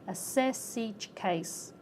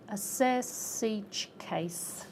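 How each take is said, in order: First: The final consonants are carried into the next words. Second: The final consonants are carried into the next words.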